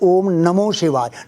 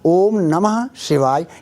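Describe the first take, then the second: First: The middle word ends in an 'o' sound. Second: The middle word ends in an 'ah' sound. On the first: The speaker calls it wrong. "नमो शिवाय नहीं होता है कहीं पर भी" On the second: The speaker calls it right. "ये ऐसा बोलेंगे तो ठीक होगा"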